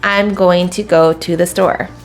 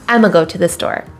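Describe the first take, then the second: First: Every word is said fully and separately. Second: The words are squeezed into a short reduced form.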